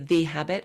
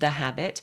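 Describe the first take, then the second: First: The word 'the' is stressed and full. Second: The word 'the' is unstressed and reduced.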